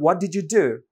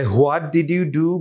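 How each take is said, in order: First: WHAT DID YOU DO run together, "di-joo"; quicker, blended "what di-joo do"; linked pronunciation. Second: WHAT DID YOU DO slow, each word separate. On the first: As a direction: glide "did you" into a j sound. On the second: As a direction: textbook "what, did, you, do" without blending. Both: Shown as a demonstration. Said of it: "বনাম".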